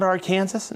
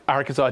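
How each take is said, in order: First: Arkansas said as "ar-KAN-zus", rhyming with Kansas; mock the misreading, Arkansas like Kansas; wrong Arkansas. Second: Arkansas said "AR-kan-saw", silent s; correct Arkansas. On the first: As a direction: Arkansas pronounced like the state Kansas. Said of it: "No, it's Ar-, Arkansas". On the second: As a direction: Arkansas with the final s dropped. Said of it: "that's not Arkansas". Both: Shown as a demonstration.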